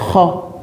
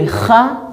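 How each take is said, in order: First: The syllable ends in a rounded 'o' vowel. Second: The syllable ends in an open 'a' vowel. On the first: "on dit Kho" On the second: "Au lieu de Kha"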